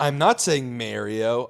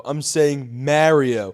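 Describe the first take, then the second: First: "Mario" said MARE-ee-oh, slowly; slow denial, "Mario" with the vowel of "mare"; rejected MARIO. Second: "Mario" said MA-ree-oh, short a as in "mat"; very slow, loud "Mario" with a flat Jersey a; own Jersey MARIO. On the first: Podcaster telling critics what he isn't saying, "Mario" as MARE-ee-oh. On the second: Podcaster showing critics his version, "Mario" as MAH with the a of "mat". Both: Shown as a demonstration.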